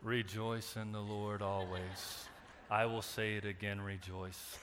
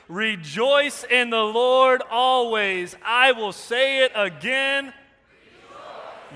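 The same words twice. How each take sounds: First: It is said flatly, without enthusiasm. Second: It is said with lively enthusiasm.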